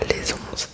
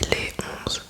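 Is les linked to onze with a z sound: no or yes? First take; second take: yes; no. First: The s of les links into onze. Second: Les and onze are said without linking. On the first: The speaker calls it wrong. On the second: The speaker calls it right. "on dit"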